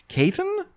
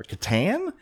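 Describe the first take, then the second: First: "Caton" as KAY-tun, questioning rise; unsure pronunciation. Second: "Catan" stressed on the second syllable, questioning; unsure pronunciation. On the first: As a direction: try out "Caton" stressed up front. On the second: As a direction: try out "Catan" as ka-TAN, rising. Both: Real, not acted. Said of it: "don't know how to pronounce".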